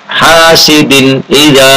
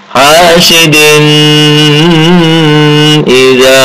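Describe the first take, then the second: First: The n sound is pronounced clearly and distinctly. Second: The n sound is blurred into the next sound. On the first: The speaker calls it right. "Ini membacanya dibaca idhar" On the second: The speaker calls it wrong. "Enggak boleh"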